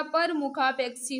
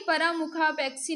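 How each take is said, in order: First: परमुखापेक्षी with a short a after pa, param-ukhapekshi; teacher says परमुखापेक्षी with the short a, as the right form; correct form shown. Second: परामुखापेक्षी with a long aa after pa, para-mukhapekshi; teacher says परामुखापेक्षी with the long aa, as the mistake to avoid; wrong form shown. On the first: Teacher to students, giving the correct spelling, short a. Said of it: "परमुखापेक्षी होता है". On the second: Teacher to students, naming the wrong spelling, long aa. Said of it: "परामुखापेक्षी नहीं होता". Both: Shown as a demonstration.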